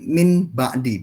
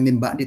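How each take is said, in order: First: The n stays n, the two words kept apart. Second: The n changes to m, blending into the b. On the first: Each word is said separately so its meaning is clear. "tapi min ba'di" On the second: It is recited fully by the iqlab rule. "Tidak membacanya min ba'di"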